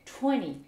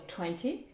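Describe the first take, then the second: First: 'twenty' without T, as 'twenny'; nasal start on "twenty", T dropped; American twenty. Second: 'twenty' with the T sounded after N; crisp T in "twenty", rising end; British twenty. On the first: Teacher gives the number American-style, twenty without T. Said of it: "et des Américains". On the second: Teacher gives the number British-style, twenty with clear T. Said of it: "des Britanniques vont dire bien sûr". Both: Shown as a demonstration.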